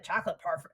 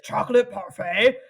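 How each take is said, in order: First: Said in the usual way. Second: Louder, baffled mock question with a rise; loud, puzzled put-on voice; clueless character's question. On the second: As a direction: repeat it as if you've never heard the words. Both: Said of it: "clearly has no fucking clue what it is".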